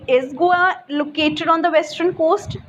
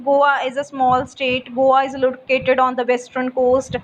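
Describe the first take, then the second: First: Slow yes-no question rising on "coast"; measured question with a lift on "coast"; rising intonation. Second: Level reading with no rise on "coast"; even, unraised statement ending on "coast"; statement intonation. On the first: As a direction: ask slowly, pitch going up at "coast". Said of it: "has a rising intonation". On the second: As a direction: read it simply, without stressing any word. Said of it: "we read statements simply without giving any stress". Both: Shown as a demonstration.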